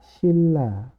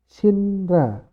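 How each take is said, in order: First: The first syllable ends with an l sound. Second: The first syllable ends with an n sound. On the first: This is how it is actually read. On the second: This is how it is written.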